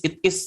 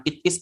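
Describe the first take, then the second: First: It is run together as itis; linked it is. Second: It is said as two separate words; separated it is. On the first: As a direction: link the t of it into is. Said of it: "langsung dibacanya ya it is". (it is dibaca langsung tersambung) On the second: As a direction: pause between it and is. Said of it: "jangan it is". (it is dibaca terpisah) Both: Shown as a demonstration.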